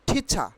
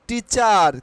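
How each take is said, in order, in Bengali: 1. প্রথম t মহাপ্রাণ, আর r নীরব। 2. প্রথম t অল্পপ্রাণ, আর r উচ্চারিত হয়। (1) "আমরা টিচারের উচ্চারণ করব ঠিচা। আর will be silent হেয়ার।" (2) "not টিচার"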